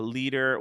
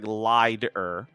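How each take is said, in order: First: The first vowel sounds like 'ee'. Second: The first vowel sounds like 'eye'. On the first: The speaker calls it right. "but Lieder" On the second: The speaker calls it wrong. "It looks like Lieder"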